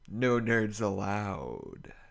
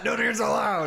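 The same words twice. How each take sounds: First: The voice trails off softly and mysteriously. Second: It ends loudly and forcefully like a shout.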